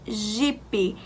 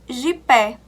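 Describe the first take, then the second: First: The final vowel sounds like i. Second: The final vowel sounds like e. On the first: The speaker calls it right. "ele passou a ter o som da vogal I" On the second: The speaker calls it wrong. "Jipe não se lê jipé"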